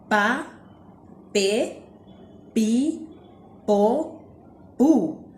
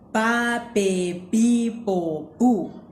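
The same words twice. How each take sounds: First: The syllables are said more slowly. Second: The syllables are said at a normal pace.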